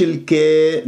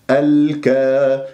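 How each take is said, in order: First: الكي, long aa tilted to an e; tilted alif. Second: Slow الكا with a full long aa; open alif. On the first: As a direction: narrow الكا into الكي, as an error. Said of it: "مش الكي". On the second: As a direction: hold الكا open, no tilt toward e. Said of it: "لا أميل الألفات". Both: Shown as a demonstration.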